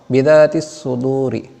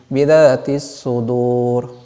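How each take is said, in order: First: The last word ends with an i vowel. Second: The last word ends on the consonant r. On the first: The reading continues past this word. "Ujungnya kasrah" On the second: The reading stops at this word. "kalau nah kita baca berhenti, ... asalnya kasrah menjadi sukun"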